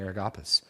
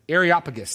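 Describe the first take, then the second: First: The word is said with one syllable missing. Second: The word is said with every syllable included. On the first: The speaker calls it wrong. "I didn't say that properly" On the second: The speaker calls it right. "There we go. I knew there's an extra syllable that I was missing"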